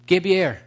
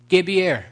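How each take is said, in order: Both takes have the same delivery.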